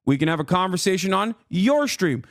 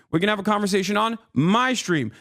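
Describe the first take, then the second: First: YOUR punched out as a challenge; stress on YOUR. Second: MY punched out in answer; stress on MY. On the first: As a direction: lean hard on the word YOUR. Contrasts your stream with my. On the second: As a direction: lean hard on the word MY. Contrasts my stream with your. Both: Real, not acted.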